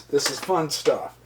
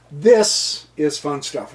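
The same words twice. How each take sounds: First: Said in the usual way. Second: "This" punched and drawn out, rest slower; stress on THIS. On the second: Real, not acted. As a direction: lean hard and long on "This". Repeats the remark for emphasis.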